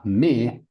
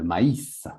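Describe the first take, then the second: First: Mais said as one vowel mè; wrong word mais. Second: Maïs said ma-ïs, a then i apart; maïs, two beats ma-iss; maïs with two vowels. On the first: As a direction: say mais short, like mè. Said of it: "c'est pas mais". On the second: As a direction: split maïs into ma and ïs. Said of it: "mais c'est le maïs". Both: Shown as a demonstration.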